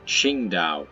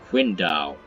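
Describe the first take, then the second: First: The name is said with a t sound. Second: The name is said without a t sound. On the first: "That's the German way of saying it. ... has a T in it" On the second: "in Chinese, it should be pronounced more like"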